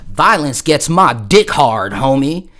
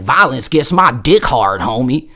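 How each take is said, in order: First: Slow, loud Southern twang drawl. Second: Slow Southern twang drawl; Southern twang demo. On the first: Retold or imitated. Turtle to the dude, slow Southern twang. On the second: Shown as a demonstration. Teller showing the line, slow Southern twang. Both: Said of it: "you gotta have that Southern twang".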